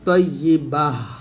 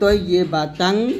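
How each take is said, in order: First: The word ends in a stopped 'h' sound. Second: The word ends in a full '-tan' ending. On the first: The reader pauses on this word. "হা সাকিন মানে ফেলতে ফেলতে হবে" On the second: The reader continues without pausing. "যদি আমরা ওয়াকফ না করি তাহলে তয়্যিবাতান এরকম বলবো"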